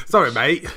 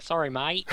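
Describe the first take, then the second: First: Laughing Aussie twang; Australian accent. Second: Light Aussie twang; Australian accent. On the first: Acted. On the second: Retold or imitated. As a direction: say it like a laid-back Australian. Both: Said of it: "You're saying that in an Australian accent".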